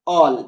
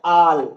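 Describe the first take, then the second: First: The vowel is a rounded 'aw' sound. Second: The vowel is an open, unrounded 'ah' sound. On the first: "मेरा vote किन के लिए है, ऑल" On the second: "कुछ students इसको प्रोनाउंसिएट करते हैं आल"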